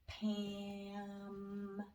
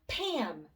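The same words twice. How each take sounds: First: The word is stretched out slowly. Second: The word is said quickly. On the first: "Let's blend it slowly together" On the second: "Let's say it fast"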